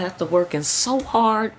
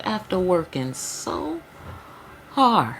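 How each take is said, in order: First: Said in the usual way. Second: Slow, stretched "After working so hard" with a lift on "so" before a firm "hard"; savoring the quote. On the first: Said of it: "did she say the hell out of that". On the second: Retold or imitated. Reader re-quotes the card with relish, slow savoring stress. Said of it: "She said, did she say the hell out of that".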